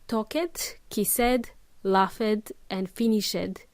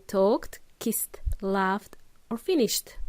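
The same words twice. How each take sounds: First: "talked, kissed, laughed, finished" each with a separate "-ed" syllable; wrong extra syllable. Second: "talked, kissed, laughed, finished" with just a T at the end, no extra syllable; T endings. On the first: Teacher showing the mistake, extra "-ed" syllable on each verb. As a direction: pronounce a full "ed" on every verb: talk-ed, kiss-ed. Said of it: "So we don't say it". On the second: Teacher correcting the mistake, verbs ending in plain T. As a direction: end each verb in T: talkt, kisst, laft, finisht. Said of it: "We say". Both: Shown as a demonstration.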